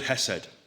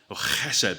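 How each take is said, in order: First: The word starts with a soft plain h. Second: The word starts with a harsh throaty sound.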